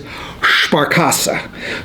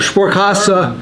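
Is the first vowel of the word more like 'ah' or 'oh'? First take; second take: ah; oh. First: The first vowel sounds like 'ah'. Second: The first vowel sounds like 'oh'. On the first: The speaker calls it wrong. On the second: The speaker calls it right.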